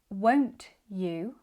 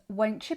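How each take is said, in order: First: The t and y are said separately. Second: The t and y blend into a ch. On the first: "instead of saying each word clearly and separately" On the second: "becomes won't you"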